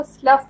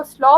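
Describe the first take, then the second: First: स्लफ said with a short "uh" vowel and a final f, rhyming with cuff; स्लफ pronounced as the verb, ending on f; verb pronunciation. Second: स्लॉ pronounced as the noun, without any f sound; noun pronunciation. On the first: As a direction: give स्लफ the verb reading, closing on a clear f. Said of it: "as verb पढ़ेंगे तो हम इसको स्लफ". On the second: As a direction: give स्लॉ the noun reading, ending on the open vowel. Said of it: "as noun पढ़ेंगे तो हम इसको स्लॉ पढ़ेंगे". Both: Shown as a demonstration.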